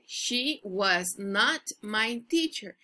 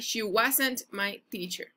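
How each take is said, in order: First: Was and not are said as two full words. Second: Was and not merge into one short word.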